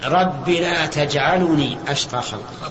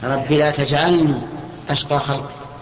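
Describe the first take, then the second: First: The l in the verb carries a u vowel. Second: The l in the verb carries no vowel. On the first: The speaker calls it wrong. "خطأ. ليش؟ لأنك ضممتها" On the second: The speaker calls it right. "صحيح؟"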